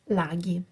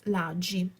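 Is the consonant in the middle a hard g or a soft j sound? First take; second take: hard g; soft j. First: The middle consonant is a hard g sound. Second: The middle consonant is a soft j sound. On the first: The speaker calls it right. "it's laghi" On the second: The speaker calls it wrong. "English people would pronunciate this word as laggi"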